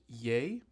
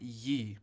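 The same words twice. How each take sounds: First: The word sounds like 'yay'. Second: The word sounds like 'yee'. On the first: The speaker calls it right. "pronounced Ye" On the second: The speaker calls it wrong. "and not Ye"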